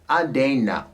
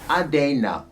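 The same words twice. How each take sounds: Both takes have the same delivery.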